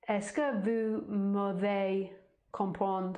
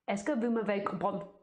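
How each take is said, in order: First: The question is spoken slowly and carefully. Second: The question is spoken quickly and fluently. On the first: "I have to be very slow" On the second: "The French are like, ... Even quicker"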